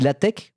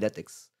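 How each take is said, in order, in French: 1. La fin n'est pas prononcée comme elle s'écrit. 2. La fin est prononcée exactement comme elle s'écrit. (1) "on dit latex" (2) "Il y a écrit latex, je dis latex"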